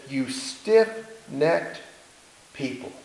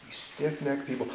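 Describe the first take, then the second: First: Drawn-out, slow rebuke rising on stiff-necked. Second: Said in the usual way. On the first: Retold or imitated. Moses rebuking the people, slow and stern. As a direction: stretch out "stiff-necked" slowly, like a stern prophet.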